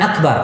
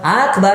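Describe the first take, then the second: First: The vowels in the word are kept short. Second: A vowel in the word is drawn out long. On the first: It means the greatest. The speaker calls it right. "Beda dengan akbar" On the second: It means a war drum. The speaker calls it wrong. "memanjangkan hamzah pada kalimat Allahu Akbar"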